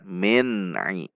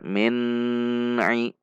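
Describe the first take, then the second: First: The n is held briefly, then released smoothly. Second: The n is held with a long nasal hum. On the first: The speaker calls it right. "Namun dibaca min ai" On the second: The speaker calls it wrong. "Tidak boleh dibaca min ai. Itu bacaan gunnah"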